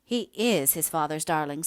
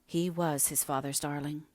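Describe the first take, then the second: First: Firm contradiction, "is" pushed out strongly; insistent, with "is" stressed against the past tense. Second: Subdued, measured, with "was" gently weighted; slowly, letting "was" carry the meaning; slow stress on WAS. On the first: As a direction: hit the word "is" to correct her. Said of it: "said the woman, rising hastily". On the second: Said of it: "said Margaret slowly". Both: A narrator's reading.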